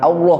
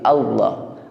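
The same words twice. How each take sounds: First: The vowel is said with rounded, pouted lips. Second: The vowel is said with unrounded, relaxed lips. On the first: The speaker calls it wrong. "bukan Allah, bukan sambari monyong" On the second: The speaker calls it right. "tapi Allah"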